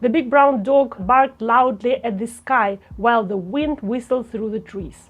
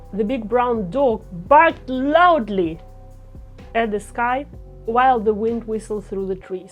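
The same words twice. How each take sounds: First: 'Barked loudly' gets no special pitch accent. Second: 'Barked loudly' is accented with raised pitch.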